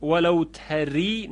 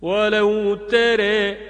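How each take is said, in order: First: ولو تری with a full open a, said plainly; the wrong way: تری with a plain a; wrong open vowel. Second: ولو تره sung slowly and higher, تره with e; slow chanted ولو تره; correct imala. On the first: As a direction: say تری as tara, not bent. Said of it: "ولو تری غلطه". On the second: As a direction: stretch تره as tere, delicately. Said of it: "ظریف و زیبا تلفظ کرد". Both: Shown as a demonstration.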